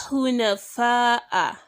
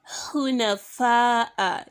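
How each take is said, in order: Both takes have the same delivery.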